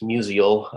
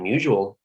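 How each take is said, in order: First: The name is said the standard, non-local way. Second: The name is said the local St. Louis way. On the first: The speaker calls it right. "It's Musial" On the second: The speaker calls it wrong. "mispronouncing him like most Saint Louisans do"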